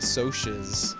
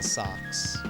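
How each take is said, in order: First: It is said with two syllables, like so-shus. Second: It is said with one syllable, like socks. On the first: This is how a teacher said it. "my teacher pronounced it Socias" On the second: This is how the speaker thought it should be said. "I thought it should have been socks"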